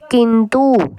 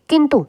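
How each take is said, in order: First: The u vowel is drawn out long. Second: The u vowel is short and quick. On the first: The speaker calls it wrong. "इसकी जो आवाज़ आती है वो देर तक आती है" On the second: The speaker calls it right. "इसकी आवाज़ छोटी आती है थोड़ी"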